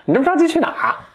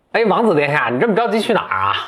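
First: Much higher, hammed-up sneering dwarf; cheeky dwarf. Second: Higher, sly dwarf voice; cheeky dwarf. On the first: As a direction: camp it up, mocking the hurried prince. (尖声怪气、很贱的侏儒腔) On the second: Acted. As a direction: tease the prince like a cheeky dwarf. (贱兮兮的侏儒腔) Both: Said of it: "这侏儒很贱".

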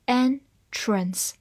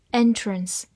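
First: "Entrance" split as en, trance with a pause; "Entrance" broken up for learners; syllable by syllable. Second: Said in the usual way. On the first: Shown as a demonstration. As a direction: say "Entrance" slowly in two separate syllables. Teacher breaks word into syllables.

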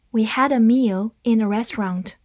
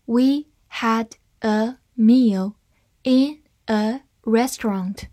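First: Said in the usual way. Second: Slow, word by word; deliberate teaching pace for learners to follow; slow reading. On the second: Shown as a demonstration. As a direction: leave a gap after every word. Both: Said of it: "慢慢来读".

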